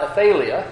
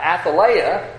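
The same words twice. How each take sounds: First: Athaliah said as uh-THAY-lee-uh; habitual West Texas pronunciation. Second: Athaliah said slowly as ath-uh-LIE-uh; proper Bible pronunciation. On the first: Preacher showing his own habit, Athaliah as uh-THAY-lee-uh. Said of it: "which is what I would have done". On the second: Preacher teaching the king's mother's name, Athaliah as ath-uh-LIE-uh. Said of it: "proper Bible pronunciation of names". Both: Shown as a demonstration.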